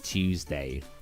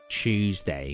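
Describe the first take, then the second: First: The word begins with a plain t sound. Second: The word begins with a ch sound. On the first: This is the way others say it. "instead of Tuesday" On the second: This is the British way people make fun of. "ch, Tuesday"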